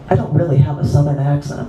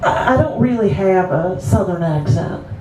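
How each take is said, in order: First: It is spoken in a neutral, everyday accent. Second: It is spoken in a Southern American accent. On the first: This is the speaker's real voice. "don't I sound so nor- oh, normal with my normal voice?" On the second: The speaker is putting on a voice to seem crazy. "I kind of picked up this southern accent"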